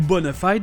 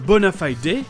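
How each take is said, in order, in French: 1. Elle est prononcée avec une prononciation américaine. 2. Elle est prononcée avec une prononciation britannique. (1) "Aux États-Unis, ils ont opté pour la simplicité" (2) "Quant au Royaume-Uni, on a un bona fide qui pourrait être considéré un peu plus classe"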